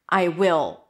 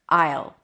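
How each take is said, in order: First: Will is said as a full separate word. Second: Will is contracted onto the pronoun. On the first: The speaker calls it right. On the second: The speaker calls it wrong.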